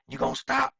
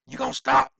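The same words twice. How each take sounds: First: Much higher, raised demand. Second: Much higher and louder, nearly yelled; shouted demand. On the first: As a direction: push him to give up. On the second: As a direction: yell it at him to make him quit. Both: Retold or imitated. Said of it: "you can hear Ken saying".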